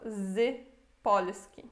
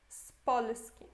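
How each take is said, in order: First: The z is said separately with a z sound. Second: The z joins the next word as an s. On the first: The speaker calls it wrong. "a gente não lê isso Z Polski" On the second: The speaker calls it right. "A gente lê junto Spolski e desse jeito esse Z fica com som de S"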